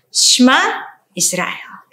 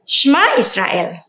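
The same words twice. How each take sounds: First: It is read slowly, step by step. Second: It is read at a faster pace. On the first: "kita akan membacanya step by step" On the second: "Kita akan membacanya secara uh, lebih cepat lagi"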